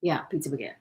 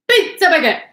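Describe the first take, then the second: First: Said in the usual way. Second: High, loud excited yell; shout. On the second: Real, not acted. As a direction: belt it out with glee. Shouting the phrase.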